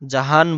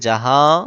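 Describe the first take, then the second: First: The word ends in a fully pronounced n. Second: The vowel is nasalized with no full n. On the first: The speaker calls it wrong. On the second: The speaker calls it right.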